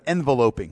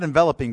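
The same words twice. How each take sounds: First: It sounds built on the noun envelope. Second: It sounds built on the verb envelop. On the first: The speaker calls it right. "but enveloping, okay? Like an envelope" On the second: The speaker calls it wrong. "Not enveloping"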